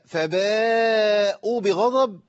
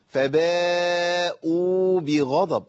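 First: The final 'u' of the first word is dropped. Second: The final 'u' of the first word is lengthened. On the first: The speaker calls it wrong. "انا اخطات وانا بقراها بس متعمد عشان ابين الخطا" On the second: The speaker calls it right. "لابد من بيان المد في الواو"

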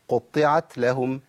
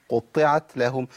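No difference in how they are said.

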